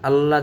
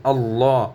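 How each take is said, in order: First: "আল্লাহ" with light l and short open a; mistaken thin l. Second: "আল্লাহ" with a long, rounded law; correct heavy l. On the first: Teacher names the slip, "আল্লাহ" with thin la. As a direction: say "আল্লাহ" as quick al-la. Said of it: "জানি আমরা না বলি". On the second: Teacher corrects learners, "আল্লাহ" with heavy long law. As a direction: say "আল্লাহ" as al-law, dark and held. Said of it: "আল্লাহ জানি আমরা না বলি". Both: Shown as a demonstration.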